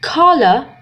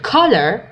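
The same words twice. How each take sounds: First: It is said in a British accent. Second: It is said in an American accent. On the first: "باللهجة البريطانية" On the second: "باللهجة الأمريكية نقول"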